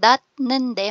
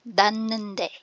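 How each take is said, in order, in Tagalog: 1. Ang unang pantig ay nagtatapos sa tunog na t. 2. Ang unang pantig ay nagtatapos sa tunog na n. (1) "yung dat nende" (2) "magiging dan nende"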